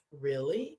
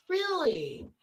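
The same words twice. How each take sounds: First: Low, questioning retold reply; understated query. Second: High, drawn-out retold surprise; astonished. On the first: Friend asking about Knappers in New Orleans, understated query. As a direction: ask it low, with rising tune. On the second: Friend hearing they share the Knapper name, astonished. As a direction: imitate a friend's amazed reaction.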